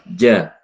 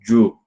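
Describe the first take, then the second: First: The syllable sounds light, with a low open vowel. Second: The syllable sounds heavy, with a dark rounded vowel. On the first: The speaker calls it right. "tapi ja, ja, bawah ya" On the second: The speaker calls it wrong. "bukan ju"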